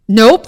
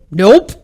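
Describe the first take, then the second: First: Stamp the second nope down; emphatic nope again. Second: First firm nope; emphatic nope. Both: Real, not acted. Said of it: "repeated flat refusal".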